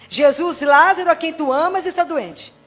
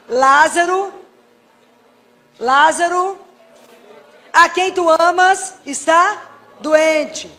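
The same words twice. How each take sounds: First: Said in the usual way. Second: Loud, slow, drawn-out prayer; prayed aloud. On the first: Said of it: "Jesus lembra de novo essa frase". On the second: Shown as a demonstration. Pleading with Jesus for sick Lazarus, loud and drawn out. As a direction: call the name out to Jesus slowly. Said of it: "eu rezo a frase".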